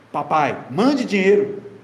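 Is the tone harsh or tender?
harsh. It is said in a harsh, demanding tone.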